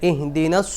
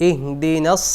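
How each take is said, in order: No difference in how they are said.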